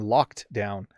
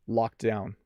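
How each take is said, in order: First: It is said slowly with a clear d sound. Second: It is said quickly with the d barely heard. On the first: "I overpronounced the second one" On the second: "Let me say it at my normal speed. ... So you hardly hear the D"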